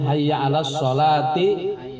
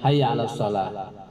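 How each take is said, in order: First: The last word ends with a 'ti' syllable. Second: The last word ends with an 'h' sound. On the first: The phrase is joined to the next one. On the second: The phrase ends with a stop.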